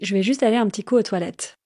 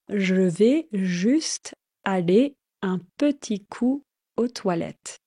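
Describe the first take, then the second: First: It is spoken at a normal, quick pace. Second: It is spoken at a slower, careful pace.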